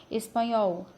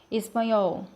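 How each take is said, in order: Both takes have the same delivery.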